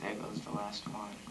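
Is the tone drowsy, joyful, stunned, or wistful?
drowsy. It is said in a sleepy, drowsy way.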